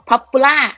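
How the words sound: It is said with a Thai-style accent. The speaker calls it wrong. "ที่คนไทยชอบออกนะคะเราอาจจะแบบบอก"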